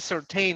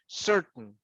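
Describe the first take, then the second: First: The final syllable is pronounced fully and clearly. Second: The final syllable is swallowed, almost silent. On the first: The speaker calls it wrong. "we don't say certain" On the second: The speaker calls it right. "it's certain"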